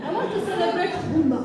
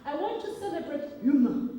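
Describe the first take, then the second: First: Huma said the Muganda way, louder, faster and laughing. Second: Said in the usual way. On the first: Shown as a demonstration. Speaker at a conference retries the guest's name Huma the Muganda way, laughing and louder. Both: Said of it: "I will say it like a Muganda".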